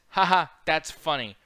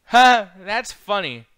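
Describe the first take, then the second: First: Slow, deadpan ha ha; quoting a lifeless forced laugh; dry fake laugh. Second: Slow, loud, high mock laugh; imitating Kurt Angle's forced laugh; Kurt Angle's fake laugh. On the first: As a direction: say it flatly, no real laughter. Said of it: "He literally says". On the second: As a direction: ham up a fake chuckle. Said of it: "Kurt Angle goes".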